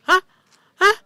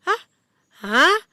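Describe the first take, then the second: First: Retold startled double gasp of hah; shocked hah. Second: Loud, high stunned hah, like a fool; dumbfounded hah. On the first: Retelling the moment she saw the TikTok, loud shocked hah. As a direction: replay the jolt of disbelief, loud. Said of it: "Bukan kaget lagi". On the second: Retold or imitated. Acting out her foolish-looking shock, loud stunned hah. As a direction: gape out each hah like someone dumbstruck. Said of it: "kayak orang bodoh-bodoh".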